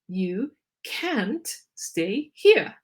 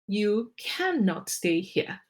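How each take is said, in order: First: The negative is contracted to 'can't'. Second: The negative is said in full as 'cannot'.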